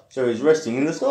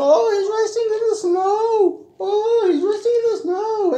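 First: Said in the usual way. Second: Very high, singsong coo. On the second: Acted. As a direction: coo gently to the little one. Singsong comment reading to child.

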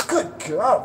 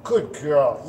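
First: Pitched up, happy praise for a dog; high excited praise. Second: Said in the usual way. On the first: Shown as a demonstration. Trainer showing how to praise a beagle, high and excited. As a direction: praise her like she just did great. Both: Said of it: "You focus on praising your beagle".

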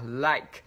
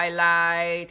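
First: "like" said quickly, cut off by the k; quick short vowel. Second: "I like" stretched loud as "ai lai"; mistaken long vowel. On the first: Teacher corrects the vowel length, "like" quick and short. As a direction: keep "like" short with a stopped ending. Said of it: "chúng ta đọc rất là nhanh cái từ này". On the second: Teacher mimics learners' error, "I like" drawn out without k. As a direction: drag out "like" and lose the final k. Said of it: "thì chúng ta bị sai". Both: Shown as a demonstration.

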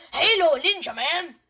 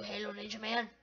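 First: Loud, punchy name shout; loud call-out. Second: Low, soft name-drop; muted grumble. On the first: Acted. Calls out against a player. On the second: Real, not acted. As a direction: say the name low and under-powered. Repeats the name in dislike.

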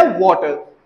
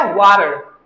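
First: वाटर as "WAW-tuh"; British water. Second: वाटर as "WAH-rer"; American water. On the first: Teacher showing British usage, वाटर as "WAW-tuh". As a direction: round aw, clear t in वाटर. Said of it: "Britishers बोलदे आ वाटर". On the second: Teacher showing American usage, वाटर as "WAH-rer". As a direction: open ah, tapped t in वाटर. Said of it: "Americans बोलदे आ वाटर". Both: Shown as a demonstration.

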